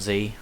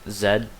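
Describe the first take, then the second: First: The letter is said the American way. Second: The letter is said the British way. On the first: This is not how the speaker's country says it. "not Z" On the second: This is how the speaker's country says it. "We say Z, ... so that's British"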